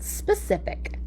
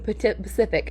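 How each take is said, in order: First: The word starts with the s sound. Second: The word starts without the s sound. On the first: The speaker calls it right. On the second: The speaker calls it wrong. "Pacific instead of specific"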